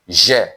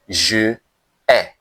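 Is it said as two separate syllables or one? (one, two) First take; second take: one; two. First: The vowel of je is dropped, giving one syllable. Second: The vowel of je is kept, giving two syllables. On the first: The speaker calls it right. "That is what we call elision" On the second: The speaker calls it wrong. "We don't say je ai"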